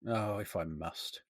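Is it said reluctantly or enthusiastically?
reluctantly. It is said reluctantly, without enthusiasm.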